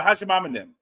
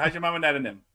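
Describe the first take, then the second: First: Cajun "How's your mom and them?", "them" swallowed; Cajun saying. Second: Put-on Cajun accent. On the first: Retold or imitated. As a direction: local Cajun greeting, lightly accented. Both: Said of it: "that's what we say".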